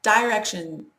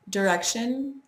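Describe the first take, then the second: First: "Direction" as DIE-rek-shun, long i; louder, drawn-out "die" opening Direction; annoying direction. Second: "Direction" as der-EK-shun, reduced first vowel; weak "der" at the start of Direction; preferred direction. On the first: Speaker showing disliked version, direction as die-rek-shun. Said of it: "sounds annoying". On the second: Speaker giving own word, direction as der-ek-shun. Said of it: "Direction sounds annoying". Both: Shown as a demonstration.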